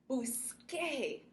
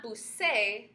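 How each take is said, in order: First: Busqué with a clear k sound; model pronunciation. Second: The wrong way, busé with an s; wrong form. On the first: Teacher shows that busqué keeps the k sound. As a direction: say busqué with a crisp k. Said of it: "we need to have that sound make". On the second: Teacher shows the wrong sound busé without the k. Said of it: "Not busé". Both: Shown as a demonstration.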